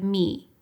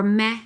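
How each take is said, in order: First: "me" said with a long ee vowel, as the right take; "me" rhymes with see, the intended sound; correct vowel. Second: "meh" said with a short eh vowel, as the wrong take; "meh" rhymes with the, the mistaken sound; distorted vowel. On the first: Therapist shows viewers the correct vowel, a long "me". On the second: Therapist shows viewers the distorted vowel, a short "meh". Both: Shown as a demonstration. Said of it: "or meh instead of me".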